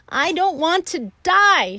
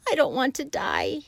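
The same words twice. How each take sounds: First: High, very loud scream. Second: A moaning, high plea. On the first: Wilbur throws himself down, screaming high and loud. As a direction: throw it out as a shriek. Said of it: "screamed Wilbur". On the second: Wilbur bursts into tears, moaning high. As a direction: moan it through tears. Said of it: "he moaned". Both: A narrator's reading.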